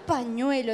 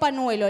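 First: The middle consonant is an ny sound. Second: The middle consonant is a plain n sound. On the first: The speaker calls it right. "Es pañuelo" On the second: The speaker calls it wrong. "me tiró pañuelo"

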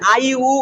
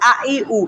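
First: The vowels start softly, without a catch. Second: The vowels start hard, with a throat catch. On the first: The speaker calls it wrong. "আ ই উ নরম হয়ে গেল" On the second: The speaker calls it right. "হামজার উচ্চারণ শক্ত, আ ই উ এরকম"

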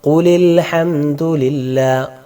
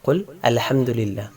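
First: The words run together with no hamza before 'al'. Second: The hamza before 'al' is pronounced separately. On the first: The phrase is read connected. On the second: The words are read separately.

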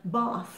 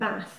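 First: The word is said in an English accent. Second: The word is said in a Scottish accent.

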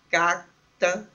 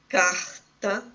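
First: The r is said as a quick flap. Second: The r is said as in carioca speech. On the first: "como em algumas partes de Curitiba, um flápio volar" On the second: "como no dialeto carioca"

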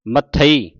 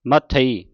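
First: The word is said as one unit. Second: The same.

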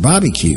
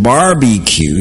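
First: The r sound is dropped, like Bobby-cue. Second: The r sound is fully pronounced in the word. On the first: "It sounds like my name, B-O-B-B-Y-Q-U-E" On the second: "And she wasn't saying barbecue"

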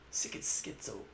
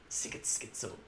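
No difference in how they are said.

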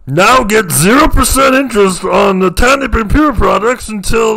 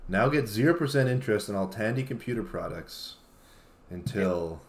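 First: It is said as an enthusiastic announcer impression. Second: It is said flatly in his own voice.

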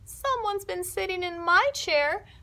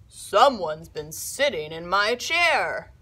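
First: The voice is tiny, high and small. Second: The voice is big, deep and gruff. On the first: Baby Bear is speaking. "in his tiny little voice" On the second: Papa Bear is speaking. "in his big, gruff voice"

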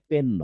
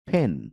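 First: The first consonant is a plain p. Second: The first consonant is an aspirated p. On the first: The speaker calls it wrong. "পি দিয়ে পেন নয়" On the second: The speaker calls it right. "ফি দিয়ে ফেন"

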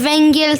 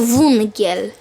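First: The first vowel sounds like 'e'. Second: The first vowel sounds like 'u'. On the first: The speaker calls it wrong. "Nie węgiel" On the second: The speaker calls it right. "tylko wungiel"

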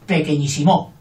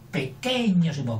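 First: The stress is on the last syllable, mo. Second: The stress is on the second syllable, que. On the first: "Y con aguda" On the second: "Si fuera sobre esdrújula sería pequeñosimo, que suena mal"

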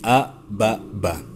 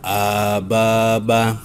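First: The vowels are kept short. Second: The vowels are drawn out long. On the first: The speaker calls it right. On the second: The speaker calls it wrong. "Jangan dibaca"

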